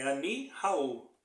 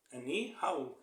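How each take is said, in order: First: "Ani Raul" said slowly, with stress on ANI; Hebrew phrase. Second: "Ani Raul" repeated quieter, stress on ANI; Hebrew phrase repeated softer. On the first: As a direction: spell out "Ani Raul" carefully, ANI first. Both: Shown as a demonstration. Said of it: "no hebraico".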